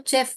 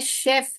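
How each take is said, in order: First: The word begins with a ch sound. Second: The word begins with a sh sound. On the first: The speaker calls it wrong. "बहुत लोग क्या बोलते हैं इसको, चेफ बोलते हैं, जो कि च का साउंड है।" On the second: The speaker calls it right. "ये क्या है, शेफ है, ये वाला एस एच।"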